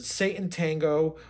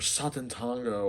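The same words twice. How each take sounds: First: "Satan Tango" as SAY-tun TANG-go; English reading of Satan. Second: "Satan Tango" as SAH-tun TAHN-go; broad AH in both words of "Satan Tango"; foreign-style pronunciation. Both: Shown as a demonstration. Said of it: "how do you pronounce this".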